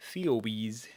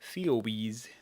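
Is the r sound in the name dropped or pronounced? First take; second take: dropped; dropped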